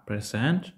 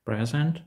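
First: "present" stressed on SENT, as the verb, drawn out slowly; stress on second syllable. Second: "Present" stressed on PRE, as the noun for a gift; stress on first syllable. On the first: («present» з наголосом на другий склад SENT) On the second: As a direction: say "Present" as PREZ-ent, first syllable strong. («Present» з наголосом на перший склад PRE) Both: Shown as a demonstration. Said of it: "наголос на складах може відігравати".

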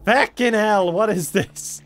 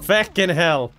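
First: Sharp high yelled curse; loud pained curse. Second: Sudden loud curse; pained curse. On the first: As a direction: yell it out, hurt and annoyed. Hit again, louder outburst. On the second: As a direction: swear it out in pain. Hit by trap, swearing. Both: Real, not acted.

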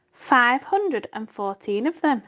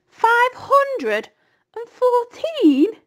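First: Said in the usual way. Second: High, loud incredulous squeal; flabbergasted young pig's cry; astonished disbelief. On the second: A narrator's reading. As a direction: stretch it out in amazed disbelief, voice shooting up. Wilbur amazed at the number.

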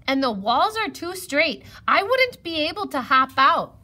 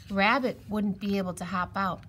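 First: High, loud rabbit voice; raised, high-pitched objection; worried rabbit. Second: Said in the usual way. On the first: A narrator's reading. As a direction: protest emphatically. Rabbit explains he cannot help.

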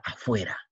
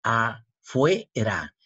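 First: Said in the usual way. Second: "Afuera" very slowly as a, fue, ra; "Afuera" drawn out as a - fue - ra; syllable separation. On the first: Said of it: "separar las sílabas". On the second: Shown as a demonstration. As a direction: split "Afuera" with pauses between the three syllables. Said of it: "separar las sílabas así".

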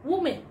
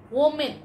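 First: Woman. starting with a round w sound, WU-man; Woman. said rightly, as WU-man; correct pronunciation. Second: Woman. starting with a v sound, VO-man; Woman. said wrongly, as VO-man; common mispronunciation. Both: Shown as a demonstration.

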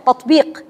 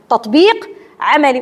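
First: Said in the usual way. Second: تطبيق drawn out slowly and weighted, then عملي; slow stress on تطبيق. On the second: Shown as a demonstration. Teacher stressing تطبيق to her students, slow and weighty. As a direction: dwell on تطبيق, spacing each word out.

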